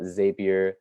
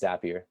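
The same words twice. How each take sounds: First: The first syllable sounds like 'zape'. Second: The first syllable sounds like 'zap'. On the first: The speaker calls it wrong. "a lot of people call it Zapier, but I'm here to debunk that pronunciation" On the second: The speaker calls it right. "it's called a Zap ... in my opinion, it's Zapier"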